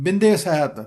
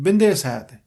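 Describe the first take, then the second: No difference in how they are said.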